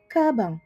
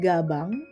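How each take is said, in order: First: The word begins with a K-like sound. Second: The word begins with a voiced G sound. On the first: The speaker calls it right. "tapi bacanya kabang" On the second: The speaker calls it wrong. "Ini bacanya bukan gabang"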